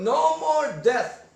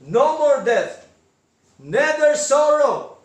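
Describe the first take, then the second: First: Slow, rising "No more death"; "No more death" spoken very slowly, rising at the end; drawn-out rise. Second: Slow and louder, falling "No more death"; "No more death. Neither sorrow." slow, emphatic, falling. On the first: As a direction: draw out "No" and let the phrase rise. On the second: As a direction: press down on "more" and let it fall. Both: Shown as a demonstration. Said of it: "malinaw sabi ni Lord".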